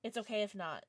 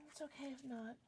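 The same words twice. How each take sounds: First: Said in the usual way. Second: Much softer resigned repeat; quiet. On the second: Real, not acted. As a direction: drop it to a near hush after a sigh. Repeats after a sigh, much softer.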